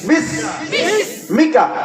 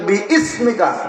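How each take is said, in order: First: The first vowel is short, as in bis-mika. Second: The first vowel is drawn out, as in bi-ismika. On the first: The speaker calls it right. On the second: The speaker calls it wrong.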